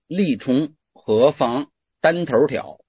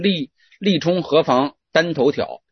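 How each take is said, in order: First: A retroflex erhua r-coloring is heard. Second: No retroflex erhua r-coloring is heard. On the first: The speaker calls it wrong. "这我说话有儿化音啊" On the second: The speaker calls it right. "叫没儿化音"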